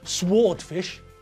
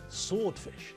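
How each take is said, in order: First: The W sound is pronounced in sword. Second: The W sound is silent in sword. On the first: The speaker calls it wrong. "It's not a" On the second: The speaker calls it right. "it's a silent W"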